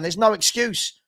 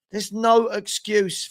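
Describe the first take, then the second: First: Said in the usual way. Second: There's no excuse said slowly, each word weighed; firm, drawn-out no excuse; slow, deliberate. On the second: Shown as a demonstration. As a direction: spell out "no excuse" slowly, leaning on "no".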